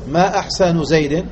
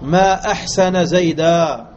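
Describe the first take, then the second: First: It is said as a question. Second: It is said as an exclamation. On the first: It asks what is finest about him. "ما أحسن زيد وجهه أم يده؟" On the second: It expresses wonder at his goodness. "هذا تعجب"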